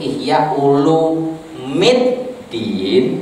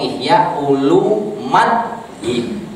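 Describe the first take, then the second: First: The vowel before the final syllable is i. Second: The vowel before the final syllable is a. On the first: "yang bisa itu Ihya Ulumiddin" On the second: "atau Ihya Ulumaddin"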